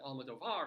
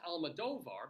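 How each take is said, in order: First: The stress falls on the syllable 'var'. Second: The stress falls on the syllable 'do'. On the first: "other people do pronounce it Almodovar" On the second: "the accent is over the D O O rather than the var"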